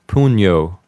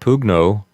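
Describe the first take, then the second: First: It is said in ecclesiastical Latin pronunciation. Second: It is said in classical Latin pronunciation.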